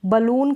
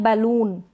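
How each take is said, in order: First: बलून with a short neutral first vowel; schwa in बलून. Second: बैलून with an open "ba" as in bat; "bai" in बैलून. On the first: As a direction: open बलून with a quick "buh". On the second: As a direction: open the first vowel of बैलून to an ae. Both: Shown as a demonstration. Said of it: "बलून करके भी और बैलून".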